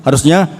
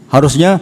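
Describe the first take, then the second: The two takes are said the same way.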